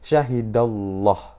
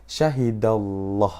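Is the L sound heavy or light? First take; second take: heavy; heavy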